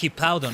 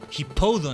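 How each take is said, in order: First: The middle syllable is said as 'pow'. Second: The middle syllable is said as 'po'. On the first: The speaker calls it right. "you gotta say the pow" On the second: The speaker calls it wrong. "I could see somebody saying, but no"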